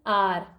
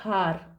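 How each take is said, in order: First: The word starts with a vowel sound. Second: The word starts with an h sound. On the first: The speaker calls it right. "H तो silent है तो वो आर हो गया" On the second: The speaker calls it wrong. "वो बहुत बार ऐसी गलती करते हैं"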